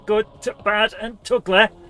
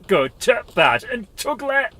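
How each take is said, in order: First: It is said in the speaker's ordinary accent. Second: It is said in an attempted Yorkshire accent.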